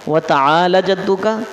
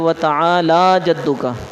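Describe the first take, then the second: First: The vowel in ta'ala is said short. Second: The vowel in ta'ala is drawn out long. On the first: The speaker calls it wrong. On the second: The speaker calls it right.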